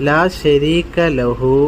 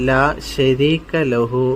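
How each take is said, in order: Both takes have the same delivery.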